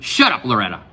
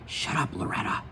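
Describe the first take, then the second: First: The line is shouted loudly. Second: The line is said quietly. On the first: The speaker calls it wrong. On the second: The speaker calls it right.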